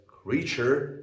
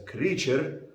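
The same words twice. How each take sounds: First: Said in the usual way. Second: "creature" with an Arabic-style R; Arabic accent. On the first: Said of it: "So you may say it as". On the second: Shown as a demonstration. Teacher showing an acceptable variant, Arabic-accented "creature". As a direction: say "creature" as an Arabic speaker would. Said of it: "you may say it as".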